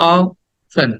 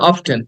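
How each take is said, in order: First: No t sound is heard in the middle. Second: A t sound is heard in the middle. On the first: The speaker calls it right. "It should be like অফেন" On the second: The speaker calls it wrong. "কিন্তু এটা অফটেন না"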